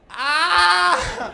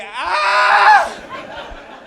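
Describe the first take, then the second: First: High, loud mimicked yell; mock scream. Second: Long, louder, higher shriek; answering mock scream. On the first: Hit man answering the driver, high mock scream. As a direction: imitate the hit man's scream. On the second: Driver screaming back at the man he hit, piercing mock scream. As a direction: scream back even harder.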